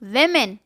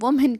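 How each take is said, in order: First: The first vowel sounds like 'wi'. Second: The first vowel sounds like 'woo'. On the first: The speaker calls it right. "जबकि इसका सही pronunciation है वेमेन" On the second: The speaker calls it wrong. "सारे ही वुमेन वुमेन करते नज़र आते हैं"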